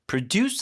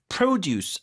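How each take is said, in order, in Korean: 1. 강세는 두 번째 음절에 있어요. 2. 강세는 첫 번째 음절에 있어요. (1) "이게 produce 하면 동사고" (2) "produce 앞에 강세해줘야 되죠"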